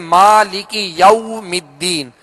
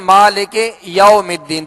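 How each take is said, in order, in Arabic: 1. الحركة بعد 'malik' هي صوت 'ee'. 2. الحركة بعد 'malik' هي صوت 'ay'.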